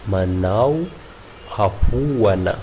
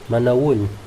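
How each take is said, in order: First: The final A sounds are clearly pronounced. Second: The final A sounds are barely heard.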